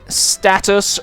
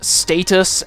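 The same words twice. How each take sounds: First: It is said with an American pronunciation. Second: It is said with a British pronunciation. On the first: The speaker calls it wrong. "saying status" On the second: The speaker calls it right. "rather than status"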